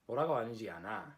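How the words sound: The pitch stays level at the end, statement-like. "it doesn't have that raised inflection at the end"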